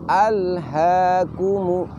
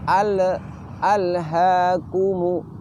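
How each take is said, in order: First: The l sound has no echoing bounce. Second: The l sound has an echoing bounce. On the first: The speaker calls it right. "seperti ini" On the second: The speaker calls it wrong. "tidak boleh keluar suara pantulan"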